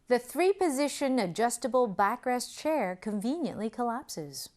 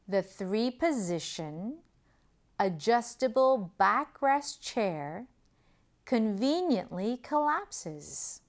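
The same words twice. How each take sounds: First: The sentence is spoken at normal, quicker speed. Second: The sentence is spoken slowly and deliberately.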